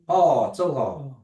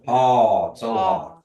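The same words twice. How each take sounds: First: The pitch rises at the end. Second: The pitch does not rise at the end. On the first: It asks a yes-no question. "Remember it goes up, the, the tone goes up" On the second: It answers yes. "when you say yes"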